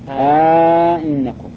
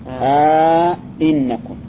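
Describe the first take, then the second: First: The second glottal stop is softened toward a y. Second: The second glottal stop is fully pronounced. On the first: "وعلى التسهيل أينكم سهل" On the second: "هذا على التحقيق"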